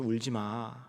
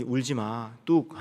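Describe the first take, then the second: First: 작은 소리로 공감하듯 달래기; 힘을 빼고 부드럽게 위로하는 흉내; 공감하는 위로. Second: 가볍게 어르다 "뚝"에서 높게 끊기; 아이 달래듯 짧게 울음 그치라고; 가볍게 달래기. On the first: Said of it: "감정적으로 공감하면서". (살짝 공감을 담은 여린 말투) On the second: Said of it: "그냥 위로 차원에서 하는". (살짝 흉내 낸 달래는 말투) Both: Retold or imitated.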